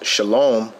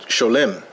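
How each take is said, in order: First: The first vowel sounds like "ah". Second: The first vowel sounds like "oh". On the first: This is the Hebrew pronunciation. "this is Hebrew spoken here" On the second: This is the Yiddish pronunciation. "in Yiddish, they would pronounce it sholem"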